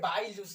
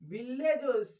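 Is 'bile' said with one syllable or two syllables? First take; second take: one; two. First: Bile is said as one syllable, rhyming with mile. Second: Bile is said as two syllables, bil-le. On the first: The speaker calls it right. "बाइल juice है" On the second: The speaker calls it wrong. "बिल्ले juice नहीं"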